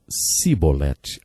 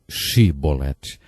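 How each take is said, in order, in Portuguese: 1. A palavra começa com um som de S simples. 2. A palavra começa com um som de SH. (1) "não conseguiam pronunciar o som C H, e por isso diziam Sibolete" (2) "ao invés de Shibolete"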